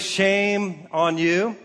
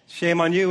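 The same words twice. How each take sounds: First: Slow scolding. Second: Said in the usual way. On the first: Shown as a demonstration. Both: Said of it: "We've all heard the phrase".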